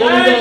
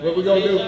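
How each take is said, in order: First: Higher, louder, demanding an answer; louder call to crowd. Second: Said in the usual way. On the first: Shown as a demonstration. Organizer repeats the question because he can't hear the crowd, loud call. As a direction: call it out again so they shout back. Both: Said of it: "Well, I, I can't hear".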